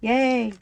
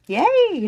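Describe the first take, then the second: First: It is said flatly, with little energy. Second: It is said brightly, with lots of energy. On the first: The speaker calls it wrong. "I should sound more excited" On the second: The speaker calls it right. "There you go. That's better"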